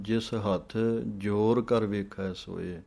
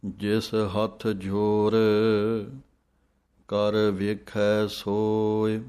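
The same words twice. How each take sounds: First: ਜਿਸ ਹੱਥ, pause, ਜ਼ੋਰ ਕਰ ਵੇਖੈ ਸੋਏ; wrong pause. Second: Slow recitation with a break after ਜ਼ੋਰ; hold, then rest on ਜ਼ੋਰ before ਕਰ ਵੇਖੈ ਸੋਏ; ਜਿਸ ਹੱਥ ਜ਼ੋਰ, pause, ਕਰ ਵੇਖੈ ਸੋਏ. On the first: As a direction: break after ਹੱਥ instead of ਜ਼ੋਰ. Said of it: "ਕਈ ਪੜ੍ਹ ਜਾਂਦੇ ਹਨ". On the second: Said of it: "ਜ਼ੋਰ ਦੇ ਉੱਤੇ ਵਿਸਰਾਮ ਹੈ". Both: Shown as a demonstration.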